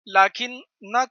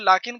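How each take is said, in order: First: The n is doubled and followed by a vowel. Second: The n is single and ends the word. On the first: The word keeps its grammatical effect. "लाकिन्ना था पेश तशदीद के साथ" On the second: The word loses its grammatical effect. "इसको मुख़फ़्फ़फ़ बना दिए"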